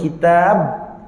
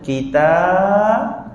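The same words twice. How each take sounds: First: The word is said quickly and abruptly. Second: The word is said softly and slowly. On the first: The speaker calls it wrong. "tak cantik" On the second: The speaker calls it right. "Kita nak slow motion, eh? Kitab, lembutlah"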